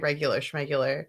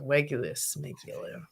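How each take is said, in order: First: The second word begins with an sh sound. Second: The second word begins with a plain s sound. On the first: "she heard me say regular schmegular" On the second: "she just says s for sh"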